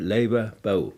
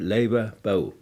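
First: The diphthong is the reversed northern Bavarian kind. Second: The diphthong is the reversed northern Bavarian kind.

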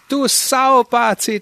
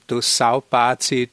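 First: It is said in a warm, delighted tone. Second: It is said in a hostile, insulting tone. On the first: The speaker is glad to see an old friend. "das ist die größte Freude" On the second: The speaker is insulting the listener. "dann klingt das ja negativ"

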